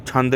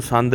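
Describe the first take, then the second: First: ਛੰਦ starting on an aspirated "chh"; ਛੰਦ with a puffed ch at the start; correct pronunciation. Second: ਸੰਦ starting on a plain s; ਸੰਦ with s as its first sound; wrong pronunciation. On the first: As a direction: say ਛੰਦ as "chhand". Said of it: "ਛੰਦ ਕਹਿਣਾ ਛੱਛੇ ਨਾਲ". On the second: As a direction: say ਸੰਦ as "sand", with a hissing s. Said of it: "ਇਹਨੂੰ ਸੰਦ ਨਹੀਂ ਬੋਲਣਾ". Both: Shown as a demonstration.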